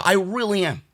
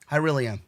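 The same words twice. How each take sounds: First: Said in the usual way. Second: Quiet, deflated. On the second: Real, not acted. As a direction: lower and softer, spent. Insists, then drops voice.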